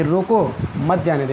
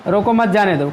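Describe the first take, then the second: First: "रोको" set apart, then "मत जाने दो"; comma pause after रोको. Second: "रोको मत जाने दो" run together in one go; no pause after रोको. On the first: Teacher explaining the comma to students, pause after "रोको". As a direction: break after "रोको" so it means stop him. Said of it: "ये रोको के बाद कामा लगा है". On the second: Teacher showing the comma removed, "रोको मत" said unbroken. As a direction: join "मत" straight onto "रोको", without a comma break. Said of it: "अगर यही कामा हम हटा देंगे". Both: Shown as a demonstration.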